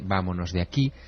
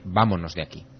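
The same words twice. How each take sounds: First: It is said with a singsong, melodic tune. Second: It is said with a plain, flat tune. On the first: It takes less effort to produce. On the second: It takes more effort to produce.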